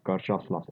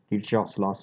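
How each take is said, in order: First: "Kirchhoff's" said with a CH, as KUR-choff's; alternative pronunciation. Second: "Kirchhoff's" said with a CH, as KEER-choff's; alternative pronunciation. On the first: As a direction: pronounce "Kirchhoff's" with an UR vowel and a CH. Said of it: "Anyway, it can be pronounced". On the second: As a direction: pronounce "Kirchhoff's" with an EE vowel and a CH. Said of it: "it's also pronounced as". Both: Shown as a demonstration.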